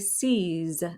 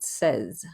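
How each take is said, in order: First: It sounds like the English word 'seize'. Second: It sounds like the English word 'says'. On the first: The speaker calls it wrong. "they want to say seize, as in seize the day" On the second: The speaker calls it right. "as in he says, she says"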